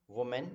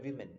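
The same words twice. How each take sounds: First: Women said as WU-mun, like woman; singular sound. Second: Women said as WIM-in; plural sound. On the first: Teacher recalling the singular, women sounded as WU-mun. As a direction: open women with a rounded "wu". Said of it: "तो पहले वाले में हमने बोला है". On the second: Teacher contrasting the plural, women sounded as WIM-in. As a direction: open women with a short "wi". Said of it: "pronunciation में आपका different हो जाएगा". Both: Shown as a demonstration.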